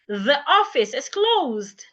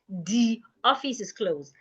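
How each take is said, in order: First: The first word starts with a voiced th sound. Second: The first word starts with a hard d sound. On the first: The speaker calls it right. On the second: The speaker calls it wrong. "not the office is closed"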